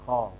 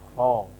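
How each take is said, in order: First: The sound is thin, not thick enough. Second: The sound is full and thick. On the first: The speaker calls it wrong. "Ini kurang" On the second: The speaker calls it right. "Seperti itu"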